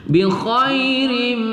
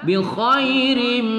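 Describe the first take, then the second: Both takes have the same delivery.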